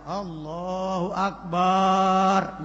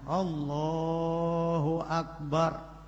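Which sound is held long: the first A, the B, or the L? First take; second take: the B; the L. First: The vowel after B in Akbar is lengthened. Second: Only the vowel after L is lengthened. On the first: The speaker calls it wrong. "ba-nya akbar tidak boleh dibaca panjang" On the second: The speaker calls it right. "Yang boleh dibaca panjang hanya huruf lamnya"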